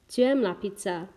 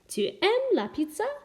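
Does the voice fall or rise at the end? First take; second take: Falls; Rises. First: The voice does not rise at the end. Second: The voice rises at the end. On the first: It states that you like pizza. "if I wasn't to increase my voice at the end, it would just be a statement" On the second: It asks whether you like pizza. "by using my voice to make it kind of heightened at the end"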